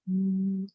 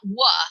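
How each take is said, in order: First: The w sound is said alone, without a vowel. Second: The w sound has a vowel after it. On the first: The speaker calls it right. "but w" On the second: The speaker calls it wrong. "not wa"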